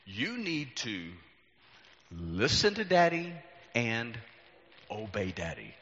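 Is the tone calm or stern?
calm. It is said in a calm, gentle tone. "it's usually not in this tone of voice"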